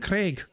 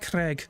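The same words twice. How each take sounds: First: It is said in a Scottish accent. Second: It is said in an American accent. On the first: The speaker calls it right. "Like, no, it's fucking Craig" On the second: The speaker calls it wrong. "hearing an American fucking say it, sound, they say it like Craig"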